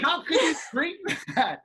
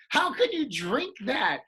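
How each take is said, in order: First: High, incredulous, laughing through it; laughing disbelief. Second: High, loud, disbelieving question; incredulous. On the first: Friend asking about hot tea, laughing incredulously. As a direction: scold him while cracking up. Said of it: "I go". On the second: Scolding a friend for hot tea, high incredulous demand. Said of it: "And I go". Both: Retold or imitated.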